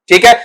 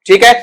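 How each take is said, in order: The two takes are said the same way.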